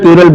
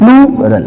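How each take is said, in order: First: The first vowel is short, not a clear 'ploo'. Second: The first syllable is a long, clear 'ploo'. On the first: The speaker calls it wrong. "बहुत बच्चे गलती करते हैं, प्लूरल प्लूरल बोलते रहते हैं" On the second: The speaker calls it right. "आपको प्लू बोलना है"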